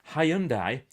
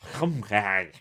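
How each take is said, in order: First: It is said the older, familiar way. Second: It is said the brand's newer way. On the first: This is how people have always said it. "If you're from Hyundai" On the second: This is how the brand now wants it said. "or as they say, we should say it"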